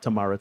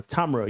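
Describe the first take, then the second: First: Tamara as tuh-MAR-uh; wrong name pronunciation. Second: Tamara as TAM-er-uh; corrected name pronunciation. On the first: Host correcting a guest's name, Tamara said tuh-MAR-uh. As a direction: say Tamara with the stress on the middle, MAR. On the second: Host greeting a viewer properly, Tamara said TAM-er-uh. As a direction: say Tamara with the stress up front, TAM. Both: Shown as a demonstration. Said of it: "pronounces her name as Tamara".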